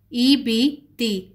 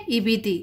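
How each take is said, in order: First: "ई बी ती" read slowly, long ee on each syllable; slow syllable drill. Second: Said in the usual way. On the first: Shown as a demonstration. Teacher sounding out the zer syllables, slow and separated. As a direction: stretch out "ई बी ती" one by one. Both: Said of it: "ये ई sound देता है".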